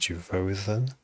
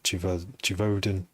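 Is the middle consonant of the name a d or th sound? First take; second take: th; d. First: The middle consonant is a th sound. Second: The middle consonant is a plain d sound.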